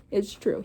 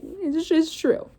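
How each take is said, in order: First: Said in the usual way. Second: "It's, it's true" stretched slowly up high; emphatic, drawn-out. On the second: Real, not acted. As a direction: lean on "true" long and high. Reader insists in aside.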